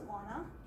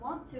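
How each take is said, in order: First: The words are slurred together into one. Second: Both words are said fully and separately.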